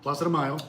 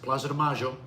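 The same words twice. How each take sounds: First: It is said in a general Spanish accent. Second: It is said in an Argentine Spanish accent.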